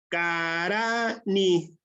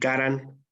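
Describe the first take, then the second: First: The stress is on the second syllable. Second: The stress is on the first syllable. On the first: It means to write. "el acento cae en la segunda sílaba" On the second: It means to fly. "si ya llevar en la primera ya sería este otro significado, ya sería el de volar"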